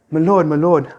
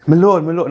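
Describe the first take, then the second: First: Higher, louder frantic my lord; hammed-up servant alarm, pitched up; panicked servant cry. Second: Higher, louder frantic my lord; a servant bursting in, crying out to his master in panic; panicked servant cry. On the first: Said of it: "I'm just gonna say it like this". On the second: Retold or imitated. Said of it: "I don't think that's how he sounded". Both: Servant bursts in on Job, calling out higher and louder in alarm.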